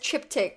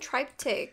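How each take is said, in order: First: The word ends with a clear k sound. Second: The word ends without a clear k sound. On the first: The speaker calls it right. "Like you just say like a K at the end" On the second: The speaker calls it wrong. "I've been saying it wrong"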